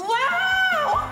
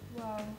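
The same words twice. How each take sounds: First: It sounds thrilled and excited. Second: It sounds sad.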